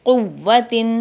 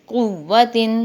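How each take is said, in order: The two takes are said the same way.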